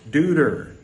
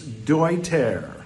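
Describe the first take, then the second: First: The name is said with an American pronunciation. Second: The name is said with a German pronunciation. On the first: This is how most Americans would assume it is said. The speaker calls it wrong. "they would assume that it's Deuter" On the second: This is how the group itself says it. The speaker calls it right. "with a German pronunciation, it's Deuter"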